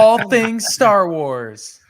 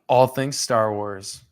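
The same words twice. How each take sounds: First: It is said in a livelier, more excited tone. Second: It is said in a flat, bored tone.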